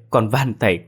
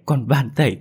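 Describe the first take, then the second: First: Begging. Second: More desperate begging. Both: A narrator's reading. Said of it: "khẩn thiết van xin".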